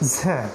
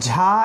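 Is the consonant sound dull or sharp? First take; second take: sharp; dull. First: The consonant sounds thin and sharp. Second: The consonant sounds dull and heavy. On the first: The speaker calls it right. "খুব খুব তীক্ষ্ণ হবে" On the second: The speaker calls it wrong. "ঝা এরকম শোনা যাবে না"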